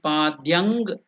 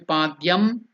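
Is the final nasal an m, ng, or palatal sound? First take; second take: ng; m. First: The word ends with an ng sound. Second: The word ends with an m sound. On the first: "It should not be padyang" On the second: "It should not be padyam"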